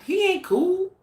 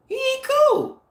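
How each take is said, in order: First: High-pitched mocking jab; mocking dismissal. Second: Much higher, louder sneering repeat; exaggerated mocking dismissal. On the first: Vlogger mocking Vlad to her viewers, high sneering tone. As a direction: toss it off like a scornful joke. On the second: Vlogger mocking Vlad to her viewers, squealing high scorn. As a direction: push the mockery over the top.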